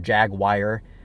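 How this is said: Jaguar is said with an American pronunciation. "the Americans say Jaguar"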